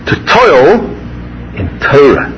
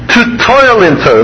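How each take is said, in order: First: The stress falls on the word Torah. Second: The stress falls on the word toil. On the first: The subject chosen for effort is the point. "I would change the emphasis of that bracha" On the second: The effort is the point, not just learning. "it's usually emphasized this way"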